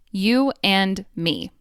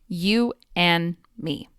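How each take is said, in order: First: The final D of and is pronounced. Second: The final D of and is dropped. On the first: "I enunciated each word" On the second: "The final D sound at the end of and disappears"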